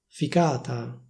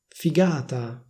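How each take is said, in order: First: The middle consonant is a voiceless k sound. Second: The middle consonant is a voiced g sound.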